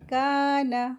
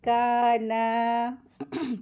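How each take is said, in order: First: The final vowel is short and quick. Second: The final vowel is drawn out long. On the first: The speaker calls it right. "इसको जल्दी पढ़ेंगे" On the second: The speaker calls it wrong. "Mistake करते हैं काना, तो वो गलत होता है"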